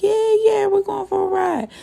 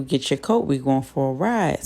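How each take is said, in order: First: Put-on much higher, thrilled kid voices; excited kids. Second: Said in the usual way. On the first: Kids thrilled their dad is taking them out, much higher and excited. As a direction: chime in like little kids who just heard great news. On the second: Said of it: "he tells Satchel".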